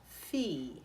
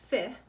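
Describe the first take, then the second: First: The vowel is a pure Italian vowel. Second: The vowel sounds English-like, as the spelling suggests. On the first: The speaker calls it right. "We say with our Italian vowel" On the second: The speaker calls it wrong. "we're not saying fi"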